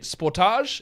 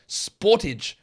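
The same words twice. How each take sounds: First: Sportage is said the speaker's own non-American way. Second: Sportage is said the way Americans say it. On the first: "is how we say it" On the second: "is how it was said in America"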